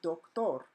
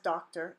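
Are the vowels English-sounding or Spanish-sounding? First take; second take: Spanish; English. First: The word is said with Spanish vowels. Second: The word is said with English vowels. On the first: The speaker calls it right. "it's pronounced doctor. So do, not doc, and tor, not ter" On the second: The speaker calls it wrong. "this is not pronounced as doctor in Spanish"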